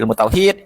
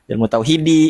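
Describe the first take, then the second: First: The last word ends on a bare d consonant. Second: The last word ends with an added i vowel. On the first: The speaker calls it right. "ya disukunkan aja bisa juga" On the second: The speaker calls it wrong. "nggak pakai ilmu tauhidi ya"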